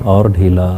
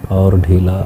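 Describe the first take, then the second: No difference in how they are said.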